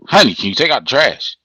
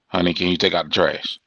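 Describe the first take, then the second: First: It is said in an annoyed, irritated tone. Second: It is said in a pleasant, calm tone.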